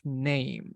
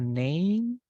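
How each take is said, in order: First: The word ends with the lips closed. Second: The word ends with the lips left open. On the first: The speaker calls it right. "it is name. So we need to close the lips" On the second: The speaker calls it wrong. "it is not name"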